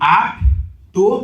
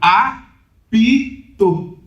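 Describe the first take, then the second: First: It has two syllables, with no vowel after p. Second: It has three syllables, with a vowel after p. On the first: "em vez de apto, duas sílabas" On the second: "fica apito"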